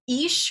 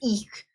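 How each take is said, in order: First: The word ends in a soft sh sound. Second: The word ends in a hard, almost k sound.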